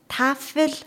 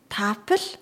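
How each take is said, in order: First: The middle consonant is an f sound. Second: The middle consonant is a p sound.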